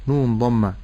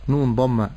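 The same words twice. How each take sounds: The two takes are said the same way.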